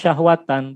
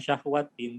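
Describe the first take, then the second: First: The word ends with the sound -an. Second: The word ends with the sound -in. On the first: The speaker calls it right. "Maka dia dibaca syahwatan" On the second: The speaker calls it wrong. "bukan syahwatin"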